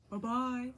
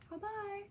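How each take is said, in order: First: It is said in a big, gruff voice. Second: It is said in a middle-sized voice.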